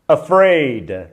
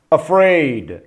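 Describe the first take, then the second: No difference in how they are said.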